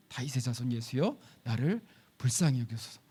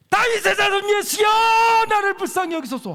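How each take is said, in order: First: 낮고 부드럽게 되뇌는 고백; 속으로 믿음을 고백하듯; 조용한 고백. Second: 높고 크게 목청껏 부르짖기; 사람들 틈에서 주목을 끌려는 절규. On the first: 바른 고백을 조용히 인용. (예수님께 드리는 조용한 고백) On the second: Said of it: "난리를 쳐야 돼". (예수님 부르며 목청껏 외치는 맹인) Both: Shown as a demonstration.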